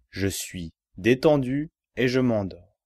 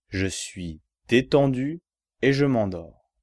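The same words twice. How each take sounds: The two takes are said the same way.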